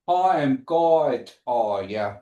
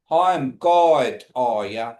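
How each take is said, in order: First: "Hi, I'm God, are ya?" traag en nadrukkelijk; slow demo. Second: "Hi, I'm God" luider en traag uitgesproken; slow, louder demo. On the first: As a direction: stretch out "Hi, I'm God" then drop for "are ya?". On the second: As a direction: say "Hi, I'm God, are ya?" slowly and louder for the class. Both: Shown as a demonstration. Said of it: "Y'all repeat that for me".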